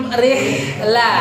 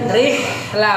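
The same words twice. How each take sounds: Both takes have the same delivery.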